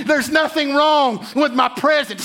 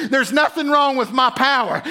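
First: Preached shout. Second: Said in the usual way. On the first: Retold or imitated. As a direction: proclaim it as God with full force. God speaking, building to shout.

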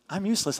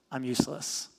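First: Said in the usual way. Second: Mopey Eeyore. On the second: Retold or imitated. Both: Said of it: "Eeyore, kinda".

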